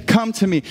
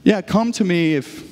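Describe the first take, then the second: First: Open, unconditional call; joyful invitation. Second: Hedged, conditional offer; grudging invitation. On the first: Jesus inviting people amid the celebration, joyful invitation. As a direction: invite them straight in, no hedging. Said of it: "in the midst of joy, he's saying". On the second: Pastor imitating what Jesus is not saying, grudging invitation. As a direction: trail off as if adding conditions. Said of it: "I'm not saying". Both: Retold or imitated.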